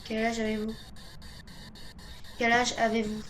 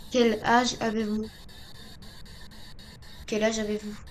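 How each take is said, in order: Both takes have the same delivery.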